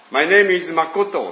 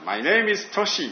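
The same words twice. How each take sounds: First: Careful English, a touch louder; a mock English introduction; English self-introduction. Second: Slow English, higher pitch; a slow, careful mock English introduction; English self-introduction. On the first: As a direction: introduce yourself in English, word by word. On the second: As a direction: spell out "Toshi" slowly in English. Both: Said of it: "って言ってですね".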